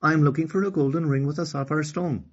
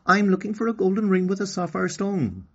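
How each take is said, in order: First: Put-on higher girl's voice, sure of herself; girl answers the queen with confidence, higher; confident Okani. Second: Put-on higher, louder little girl's voice; a small girl asking politely; little girl Okani. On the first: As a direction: answer firmly like a brave little girl. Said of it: "answered Okani with confidence". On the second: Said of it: "Okani replied".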